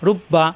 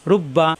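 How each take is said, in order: Both takes have the same delivery.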